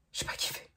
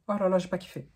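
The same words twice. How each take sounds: First: Breathy whisper, no voice. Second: Said in the usual way. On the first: Real, not acted. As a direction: whisper it to yourself first. Whispered, then repeated aloud. (chuchoté, sans voix)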